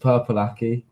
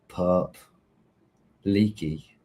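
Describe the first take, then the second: First: The name is split after purple. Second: The name is split after perp. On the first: The name is read as intended. The speaker calls it right. "oh, it's Purple Aki" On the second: The name was misread. The speaker calls it wrong. "who's Perp Leaky?"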